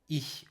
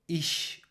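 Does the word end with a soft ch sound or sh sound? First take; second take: soft ch; sh sound. First: The word ends with a soft ch sound. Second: The word ends with an sh sound. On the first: This is the standard pronunciation. "Hochdeutsch dediğimiz kurs Almancası ya da okul Almancası da ich olarak telaffuz ediyoruz" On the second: This is a regional pronunciation. "Bazı bölgelerde iş olarak da telaffuz ediliyor"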